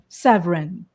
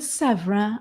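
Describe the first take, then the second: First: The name is said plainly, without French-style stress. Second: The name is said with French-style stress. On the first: "or is it just a Severin?" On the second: "that kind of a stress, that kind of a French"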